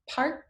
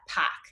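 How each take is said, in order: First: The R after the vowel is pronounced. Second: The R after the vowel is dropped. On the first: "words that have a vowel, then an R sound, and then a consonant" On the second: "they actually will drop that R sound"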